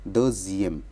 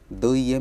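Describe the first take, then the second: First: A z sound links the two parts. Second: The two parts join with no z sound. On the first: The speaker calls it right. "इसको हम बोलेंगे द जी एम" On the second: The speaker calls it wrong. "हम इसको द ई एम नहीं बोल रहे"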